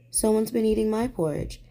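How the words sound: It is cried in a teeny tiny voice.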